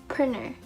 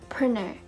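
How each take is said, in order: The two takes are said the same way.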